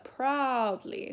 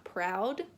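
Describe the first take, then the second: First: "proudly" with a long, open ah, slower. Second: "proud" cut short; clipped proud. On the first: Teacher shows the open word to reach the note. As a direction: stretch the ah in "proudly". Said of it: "but proudly". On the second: Teacher shows the wrong, short word. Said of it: "not proud". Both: Shown as a demonstration.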